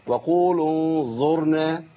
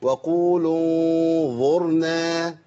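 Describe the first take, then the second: First: "انظرنا" بزاي مفخمة بدل الظاء; قل "انظرنا" كأنها "انزرنا" بزاي مفخمة; colloquial zay. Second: "انظرنا" بظاء صحيحة ولسان معلق وغنة مخفاة; انطق ظاء "انظرنا" بين الأسنان; correct dhaa. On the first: Retold or imitated. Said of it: "اللي هي الزاي المفخمة". (تقليد ضاد العوام بزاي مفخمة) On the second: Shown as a demonstration. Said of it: "أيوة،". (نطق الظاء الصحيح في "انظرنا")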